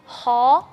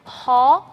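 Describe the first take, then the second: The two takes are said the same way.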